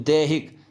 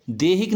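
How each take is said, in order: First: दैहिक with an "ai" vowel; correct vowel demo. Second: देहिक with a plain long "e"; wrong vowel demo. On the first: Teacher correcting children, दैहिक with ai. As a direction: say दैहिक as "dai-hik". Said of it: "दो मात्रा लगती हैं". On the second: Teacher showing children the error, देहिक with plain e. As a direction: show देहिक as "de-hik". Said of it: "देहिक नहीं होता बच्चों". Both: Shown as a demonstration.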